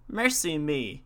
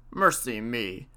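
First: Lightly voiced old woman, mildly startled; a hint of the old wife's astonishment; old woman exclaiming. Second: Lightly voiced old man, a little lower; a hint of the old husband's astonishment; old man exclaiming. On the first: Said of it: "says the old woman". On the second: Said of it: "says the old man". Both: A narrator's reading.

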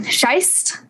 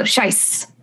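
First: Scheist said SHYST, ending on a t. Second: Scheist said softly as SHICE, no t; without a T. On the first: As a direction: close scheist on a t sound. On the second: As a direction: end scheist on a long s, dropping the t. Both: Shown as a demonstration. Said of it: "Without a T".

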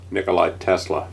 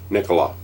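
First: "Nikolai" said as nee-koh-LYE, with the extra i sound at the end; the mistaken "Nikolai" with its final y sound, before the correction; wrong name. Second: The corrected "Nikola", falling and clipped at the end; corrected name. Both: Shown as a demonstration. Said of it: "Not Nikolai".

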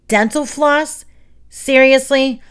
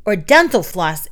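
First: High-pitched, scornful disbelief; incredulous. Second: Said in the usual way. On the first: A narrator's reading. Roach stares at Emilio over his suggestion, incredulous. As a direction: echo it as if it were absurd, getting louder.

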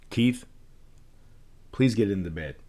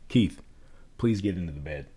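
First: Calm and firm, each phrase falling at the end; calm downward tone. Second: Firm authority, no question in it; calm downward tone. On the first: Parent telling child Keith to go to bed, calm downward tone. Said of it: "now you use a calm downward tone". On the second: Parent sending Keith to bed with calm downward authority. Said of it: "I'm using a downward tone". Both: Shown as a demonstration.

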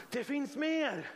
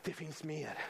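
First: Slow, raised, ringing declaration; preacher's proclamation. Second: Soft, low, understated statement; hushed promise. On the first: Preacher declares to the congregation there is more, ringing proclamation. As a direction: proclaim it, drawing out the words. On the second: Preacher confides to the congregation there is more, quietly. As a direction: drop right down and say it quietly. Soft first take before the build. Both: Real, not acted.

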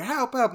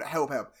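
First: Mock cry of "Help, help", pitched up; retold cry for help. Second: Said in the usual way. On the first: Co-host voicing man trapped under grate, mock pleading. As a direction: imitate a trapped man's "Help, help" without shouting. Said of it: "He's going". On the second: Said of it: "not even saying".

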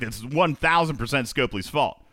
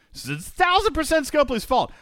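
First: Said in the usual way. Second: Mock squeaky voice. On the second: Host mockingly repeats that the developer is at fault, high and silly. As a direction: repeat it much higher in a silly put-on voice.

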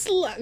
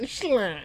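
First: Said in the usual way. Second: Slut slurred, mumbled mock copy; imitating his slut. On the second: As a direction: mimic a mushy slut. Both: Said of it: "Listen to the way he says slut".

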